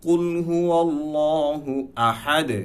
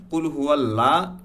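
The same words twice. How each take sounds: First: Slow, higher recited কুল হুয়াল্লাহু আহাদ; measured Quranic reading; correct recitation. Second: কুল হুয়াল্লাহ with a thin light ল; wrong reading. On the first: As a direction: chant it slowly with a heavy ল. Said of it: "কুল হুয়াল্লাহ বলতে হবে". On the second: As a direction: say হুয়াল্লাহ the mistaken way. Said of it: "এটা totally আমাদের রং হবে". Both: Shown as a demonstration.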